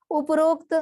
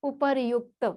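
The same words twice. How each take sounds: First: उपरोक्त with "ro" vowel, pitched higher; common incorrect form. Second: उपर्युक्त with "ryuk" in the middle; correct form. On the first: Teacher citing a bookish error, उपरोक्त higher with "o" vowel. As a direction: raise उपरोक्त and round the रो. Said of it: "कई जगह ये आपको किताबों में". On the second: Teacher giving the right word, उपर्युक्त with "yu" glide. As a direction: sound र्यु in उपर्युक्त. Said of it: "सही शब्द है". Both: Shown as a demonstration.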